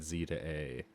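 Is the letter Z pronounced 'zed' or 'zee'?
zee. The letter Z is pronounced 'zee'. The name was not localized. "They said Z to A"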